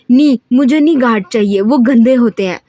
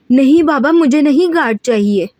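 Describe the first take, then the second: First: Loud, bratty yell; screaming. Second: Screaming refusal. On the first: Haram screams at her father that guards are dirty, loud. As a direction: scream it while throwing things. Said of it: "चीख कर बोली". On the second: Haram refuses the new guard to her father, screaming. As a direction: shriek it like a spoiled child refusing. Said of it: "हरम चीखती बोली". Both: Acted.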